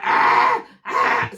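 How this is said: The cry sounds angry and harsh.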